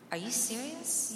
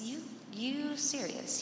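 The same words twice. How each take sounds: First: Pitched up, amazed at the question; incredulous. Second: Higher, slower, drawn-out disbelief. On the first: Daughter answering her dad, higher and incredulous. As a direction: ask it like he's gone nuts. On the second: Daughter repeating to her dad, slow and stunned. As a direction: stretch it out, stunned. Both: Retold or imitated.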